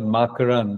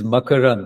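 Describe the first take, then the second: First: The name has an Americanized pronunciation. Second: The name has a native Indian pronunciation. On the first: The speaker calls it wrong. "He's Americanized it" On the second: The speaker calls it right. "it is Makarand"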